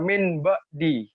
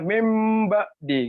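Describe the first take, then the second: First: The first word ends with a clear n sound. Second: The first word ends with an m sound. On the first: The speaker calls it wrong. "Jangan dibaca min ba di" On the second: The speaker calls it right. "Tapi cara bacanya mim ba di gitu ya"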